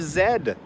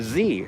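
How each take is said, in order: First: The letter is named the British way, zed. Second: The letter is named the American way, zee.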